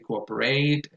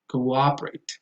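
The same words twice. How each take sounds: First: The stress falls on a syllable other than the second. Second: The stress falls on the second syllable. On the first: The speaker calls it wrong. "a lot of people say" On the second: The speaker calls it right. "that goes on the second syllable"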